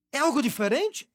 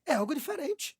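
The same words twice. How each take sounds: First: "É algo diferente?" asked with a rising end; questioning tune. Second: "É algo diferente." settled as a soft statement; a hushed confirming reply; answering tune. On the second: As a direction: answer your own question, quieter. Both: Shown as a demonstration.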